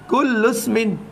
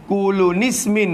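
First: The u runs straight into smin without a break. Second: An added n sound joins the two words together. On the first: The speaker calls it right. "Bila kita baca sambung lagu tu" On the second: The speaker calls it wrong. "Kulu nismin pun tak kena"

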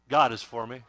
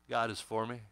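First: It is said forcefully, with strong conviction. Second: It is said in a plain, casual way. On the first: "Now let's say it like we mean it" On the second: "Say that with me"

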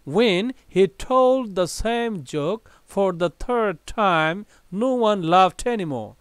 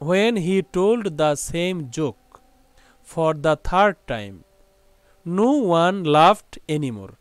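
First: It is read at a fast pace. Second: It is read slowly and simply.

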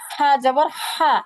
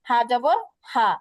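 First: The h is raspy, pressed from mid-throat. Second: The h is plain and light, not pressed. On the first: The speaker calls it right. "এটা বলার সময় একটা ফ্যাসফেসি আওয়াজ হবে গলা দিয়ে" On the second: The speaker calls it wrong. "আর এটা স্বাভাবিক বললে উচ্চারণ হয়ে যাবে"

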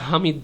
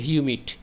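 First: The word starts with a plain 'ha' sound. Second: The word starts with a 'hyoo' sound. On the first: The speaker calls it wrong. "এটা হামিদ না" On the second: The speaker calls it right. "উচ্চারণটা হচ্ছে হিউমিড"

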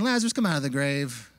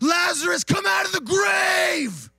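First: It is said at normal talking volume. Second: It is shouted very loudly.

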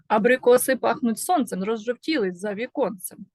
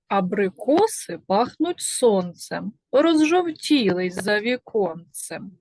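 First: It is spoken at the fastest pace. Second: It is spoken at a slow, ordinary pace.

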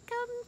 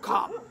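First: It is said in a bright, happy voice. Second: It is said in a stern, angry voice. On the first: Coming back will be fun. The speaker calls it right. "you say it in the happiest voice that you have. This is the voice I do" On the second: The dog is in trouble. The speaker calls it wrong. "basically sounds like you're mad at your dog"

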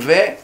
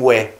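First: It is said in the Sephardi-Ashkenazi way. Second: It is said in the Yemenite-Iraqi way. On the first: "הספרדים והאשכנזים שאומרים ווה" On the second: "או התימנים והבגדדים שאומרים ווה"

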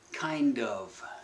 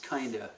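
First: Both words are pronounced fully. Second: The words are blended into one short form. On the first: The speaker calls it right. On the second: The speaker calls it wrong.

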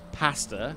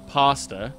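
First: It is said with a British pronunciation. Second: It is said with an American pronunciation. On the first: "I used to say pasta, being from the UK" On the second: "now I've started saying pasta"

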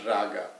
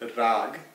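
First: The word ends with a final vowel sound. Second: The word ends without a final vowel sound. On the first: The speaker calls it wrong. "not raga" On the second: The speaker calls it right. "as in rag"

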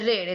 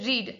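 First: The vowel is short, like 'red'. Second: The vowel is long, like 'reed'. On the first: It is the simple past form. "V2 નો ઉચ્ચાર થાય છે રેડ" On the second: It is the present or past participle form. "V1 અને V3 નો ઉચ્ચાર થાય છે રીડ"

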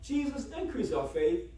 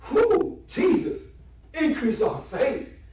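First: It is said as a calm, plain request. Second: It is said as an emotional exclamation.

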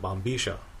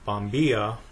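First: The double L is said as a SH sound. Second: The double L is said as a Y sound.

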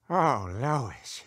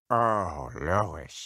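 First: It is said in his normal voice. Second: It is said in a deeper voice.

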